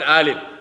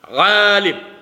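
First: The word begins with a plain vowel sound. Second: The word begins with a throaty ayn sound. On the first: The speaker calls it wrong. "not alim" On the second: The speaker calls it right. "Alim, ayn, ayn"

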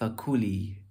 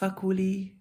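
First: The stress is on the middle syllable. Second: The stress is on the first syllable. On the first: The speaker calls it right. "but more eloquent would be" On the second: The speaker calls it wrong. "it's okay"

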